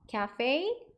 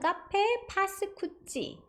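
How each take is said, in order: First: Cafe is said the English way. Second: Cafe is said the Korean way. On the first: "cafe 요 발음만 조금 조심하시면 됩니다" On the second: "한국식으로는"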